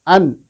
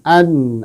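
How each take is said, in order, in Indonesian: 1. Bunyi n ditekan dan dipotong pendek. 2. Bunyi n mengalir sebentar dengan panjang sedang. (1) "tidak begitu" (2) "Jadi pertengahan"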